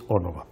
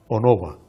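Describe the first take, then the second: First: The stress is on the first syllable. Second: The stress is on the second syllable. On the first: This is the historically correct form. "aunque es" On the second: This is the form it is usually cited in. "aparece siempre citada como"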